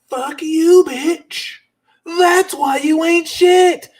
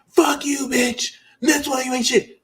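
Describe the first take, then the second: First: It is said forcefully, with strong feeling. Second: It is said flatly, without much feeling.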